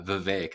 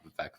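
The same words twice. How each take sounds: First: The second syllable rhymes with cake. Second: The second syllable does not rhyme with cake. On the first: The speaker calls it right. "That's how you pronounce it" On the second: The speaker calls it wrong. "not Vivek"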